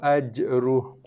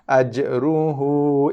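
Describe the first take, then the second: First: The final vowel is dropped, ending in h. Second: The final vowel is short, two beats. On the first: The recitation stops on this word. "bila waqaf, kita akan baca dia dengan baris sukun" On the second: The recitation continues into the next word. "dua harakat saja"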